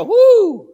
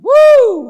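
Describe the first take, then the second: First: Loud high whoop for them to copy. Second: Even louder, higher whoop; bigger whoop. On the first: Preacher showing the congregation how to whoop. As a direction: give a joyful whoop. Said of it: "Somebody go". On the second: Preacher redoing the whoop with more force. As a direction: really let it rip. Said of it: "Let's try that again". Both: Shown as a demonstration.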